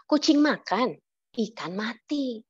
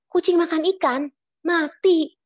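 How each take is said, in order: First: It is said straight through without a pause. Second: There is a pause before the last word. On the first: A cat eats a dead fish. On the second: The cat eats fish and then dies.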